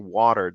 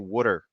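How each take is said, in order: First: It is said in a general American accent. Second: It is said in a Boston accent. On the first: "they don't say water" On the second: "especially Boston and these areas, you'll hear people do"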